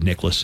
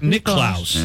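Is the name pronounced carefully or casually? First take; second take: casually; carefully. First: The name is pronounced quickly and reduced. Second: The name is pronounced fully and carefully. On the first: This is how it has been said since the early 70s. "they just got lazy and just said Nicklaus" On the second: This is how it was said early in his career. "they would enunciate"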